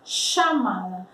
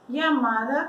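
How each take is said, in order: First: The first sound is stronger and harsher. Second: The first sound is like an English y. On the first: "mais forte o som" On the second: "como se fosse um iai"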